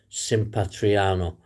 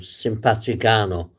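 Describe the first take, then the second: First: No G sound is pronounced mid-word. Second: A hard G sound is pronounced mid-word. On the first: The speaker calls it right. "it's actually pronounced" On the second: The speaker calls it wrong. "we would call it"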